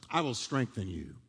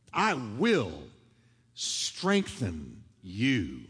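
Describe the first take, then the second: First: Said in the usual way. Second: Lower, very slow, each word drawn out; slow emphatic promise. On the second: Acted. Pastor repeating God's promise to the church, drawn out slowly. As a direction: let the promise sink in slowly.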